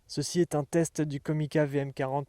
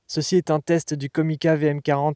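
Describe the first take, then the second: First: The audio is recorded in stereo. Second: Light noise reduction is applied. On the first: "en mode stéréo" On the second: "en mode Denoise Low"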